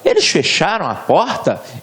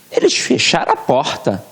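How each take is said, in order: First: It is said as a question. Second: It is said as an emphatic exclamation.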